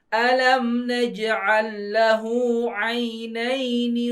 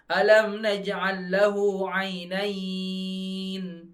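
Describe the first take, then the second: First: The final vowel is sounded and reading continues. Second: The final vowel is dropped and reading stops. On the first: The verse is read connected without stopping. The speaker calls it right. "Jadi gini bacanya" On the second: The reader pauses at this word. The speaker calls it wrong. "Bukan alam naj'al lahu 'ainain"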